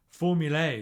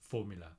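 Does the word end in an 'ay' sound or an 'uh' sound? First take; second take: ay; uh. First: The final vowel sounds like 'ay' in day. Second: The final vowel is a plain 'uh' sound. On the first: The official name they want people to use. "pronouncing the A like in day" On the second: The name everyone actually uses. "but no one does, it's just formula"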